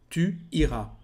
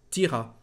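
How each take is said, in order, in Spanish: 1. El pronombre se pronuncia completo, como su propia sílaba. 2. La vocal del pronombre desaparece y se une al verbo. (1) "La segunda forma es tu iras" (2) "podemos decir t'iras"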